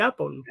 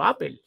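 First: APPLE said as "Á-pol"; APPLE ending in -pol, with an o; sophisticated pronunciation. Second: APPLE said as "Á-pel"; APPLE read as spelt in Spanish, ending in -pel; traditional Spanish pronunciation. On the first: Host explains the fancier Spanish choice, pronunciation demo. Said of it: "más sofisticado decir Apple". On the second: Host shows what Spaniards always said, pronunciation demo. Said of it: "nosotros siempre hemos dicho Apple". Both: Shown as a demonstration.

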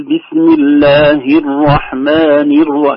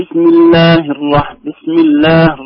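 First: "الله" ending in a full "hi"; very slow recitation, kasra sounded on the ه of "الله"; clear ha. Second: "الله" ending on a bare h; loud slow recitation, no kasra on the ه of "الله"; vowelless ha. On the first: Shown as a demonstration. Teacher showing the correct reading, clear "hi" closing "الله". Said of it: "هكذا واضحة". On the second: Retold or imitated. Teacher imitating a faulty reciter, "الله" cut to a silent-vowel h. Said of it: "كأن الهاء ساكنة".

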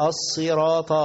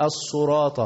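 First: "الصراط" with a clear si; sad with kasra. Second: "الصراط" with u after the sad; common mistake. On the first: Shown as a demonstration. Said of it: "الصاد مكسورة". («الصراط» بصاد مكسورة) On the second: Retold or imitated. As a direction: say "الصراط" as as-suraat. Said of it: "بعض الناس يقول لك". («الصراط» بضم الصاد خطأً)

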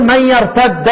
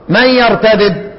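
First: يرتد with a held double d: yartadda; idgham. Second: Slow يرتدد with two separate dals: yartadid; idgham undone. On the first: Teacher shows the merged letter to undo, يرتد as yartadda. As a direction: merge both dals in يرتد, ending on "a". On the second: Teacher unpacks the merged letter, يرتدد as yartadid. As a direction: pull the doubled letter apart in يرتدد. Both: Shown as a demonstration. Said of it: "فك الإدغام".

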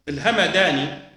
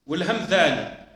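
First: الهمداني with a plain d (dal) and open vowel after the m; Hamadani with dal. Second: والهمذاني with th as in "this" for ذ; Hamdhani with dhal. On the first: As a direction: say الهمداني as ha-ma-DAA-ni, d not dh. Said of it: "الدال والذال". (الهمداني بالدال المهملة) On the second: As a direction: say والهمذاني as wal-ham-DHAA-ni. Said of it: "بالذال". (والهمذاني بالذال المعجمة) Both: Shown as a demonstration.

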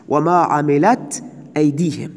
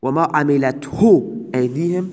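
First: «عملت» said with no final pronoun, ending on a short t; reading without the pronoun. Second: «عملته» said with the pronoun hu clearly sounded at the end; reading with the pronoun. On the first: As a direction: recite «عملت» plainly, the pronoun dropped, slow. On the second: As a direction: recite «عملته», landing on the final -hu. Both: Shown as a demonstration. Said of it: "عائد حذف هست".

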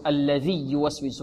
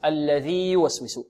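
First: الذي يوسوس with the ي merged and quick; the ي of الذي swallowed into يوسوس; wrong merging. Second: الذي يوسوس with both ي kept apart; الذي held before a separate يوسوس; clear ياء. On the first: Retold or imitated. Teacher mimics the wrong merged reading. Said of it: "لا نقول". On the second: Shown as a demonstration. Teacher gives the correct reading after the wrong one. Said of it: "بل نقول".

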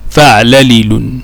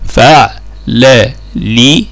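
First: Said in the usual way. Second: فعللل very slowly as fa', la, li, lun; syllable by syllable. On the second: Shown as a demonstration. Teacher spelling out the second pattern, فعللل slow and segmented. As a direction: separate each syllable of فعللل with clear pauses.

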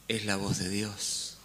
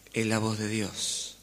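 The two takes are said the same way.

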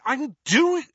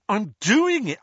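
First: Even higher, louder call, broken off; teen repeating his shout until he sees it's Harry; higher repeated shout. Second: Loud, high call that he's on it; teen calling out, thinking his mother is coming; defensive shout. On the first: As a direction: insist again, then stop short. Ron repeats, cut off. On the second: Ron caught, calls out. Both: Acted.

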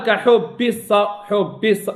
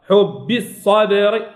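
First: حب الص with an underpressed, devoiced b; weak doubled baa. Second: Slow حب الصبر with held double b; firm doubled baa. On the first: Teacher showing the error to avoid, weak baa. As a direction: let the double b in حب go slack, as a mistake. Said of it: "لا". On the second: Teacher correcting students on the doubled letter, slow and firm. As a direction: press and hold the voiced b in حب. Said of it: "الحرف مشدد". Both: Shown as a demonstration.

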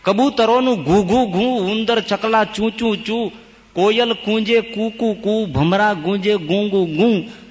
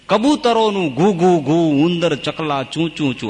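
First: Higher, slow sing-song chant of animal calls; chanted verse. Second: Said in the usual way. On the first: Shown as a demonstration. Preacher chants the animal sounds for the congregation, higher and slow. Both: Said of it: "આ બધા આવું બોલે હો".

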